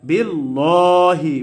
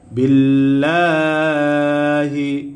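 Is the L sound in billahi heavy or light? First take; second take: heavy; light. First: The L sound is heavy and thick. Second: The L sound is light and thin. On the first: The speaker calls it wrong. "বিল্লাহি বলা যাবে না" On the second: The speaker calls it right. "বারিক করে পড়তে হবে, অর্থাৎ পাতলা করে পড়তে হবে"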